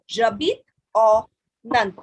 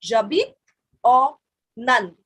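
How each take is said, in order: First: J'habite au Inde said slowly and clearly; slow model phrase. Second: Word by word. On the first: Teacher drilling students, slow and clear. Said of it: "repeat after me". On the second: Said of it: "So you can repeat after me". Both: Shown as a demonstration.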